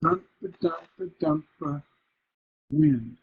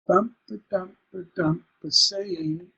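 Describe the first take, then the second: First: Quick rhythmic chant, pause, stressed "wind"; masculine ending. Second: Rhythmic chant with "saying" stressed on its first syllable; "SAY-ing" with an unstressed tail; feminine ending. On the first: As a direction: beat out "dump" and land firmly on "wind". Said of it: "got rid of that feminine ending with the masculine". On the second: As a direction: beat out "dump" and let "saying" dangle. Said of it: "Feminine ending is where". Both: Shown as a demonstration.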